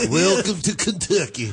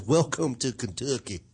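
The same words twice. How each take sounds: First: Slow, higher, hammed-up Kentucky drawl; exaggerated Southern welcome, Kentucky accent; broad Kentucky accent. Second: Slow, mild Kentucky drawl; understated Southern accent imitation. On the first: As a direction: sing out the sign in a thick Kentucky twang. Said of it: "It has an accent, apparently". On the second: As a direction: read the sign with a slight Kentucky twang. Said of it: "It has an accent".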